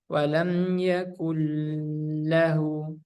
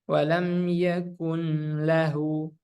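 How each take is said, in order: First: The merged sound is held with a nasal hum. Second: The n is pronounced clearly before the l. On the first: "Bukan walam yakullahu. Tidak ditahan" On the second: "Bukan juga"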